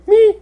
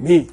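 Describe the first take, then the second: First: ME squeaked very high and held; exaggerated high tone. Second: ME dropped back down, falling; exaggerated low tone. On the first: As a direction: send ME way up in pitch. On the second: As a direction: bring ME down in pitch. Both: Shown as a demonstration. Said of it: "It's not so much tone".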